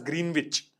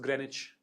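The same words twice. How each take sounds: First: The word is said with the 'w' pronounced. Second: The word is said with the 'w' silent. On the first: This is how the speaker used to say it. The speaker calls it wrong. "which I used to pronounce as Greenwich" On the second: This is the accepted way to say it. The speaker calls it right. "No, it's Greenwich"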